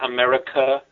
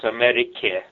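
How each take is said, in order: First: The word ends in an 'uh' vowel. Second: The word ends in an 'e' vowel. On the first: The speaker calls it wrong. "it's not America" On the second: The speaker calls it right. "it's e, not uh"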